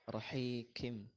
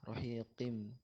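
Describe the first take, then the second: First: The q sounds thin, like a k. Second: The q sounds deep, from the throat. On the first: The speaker calls it wrong. "qafnya terlalu tipis jadi jadi seperti kaf" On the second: The speaker calls it right. "yang betul pakai qaf"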